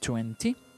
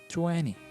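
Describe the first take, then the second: First: The t after the n is clearly pronounced. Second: The t after the n is dropped. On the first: "you can say twenty" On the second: "if you listen to American English, you are going to listen twenty"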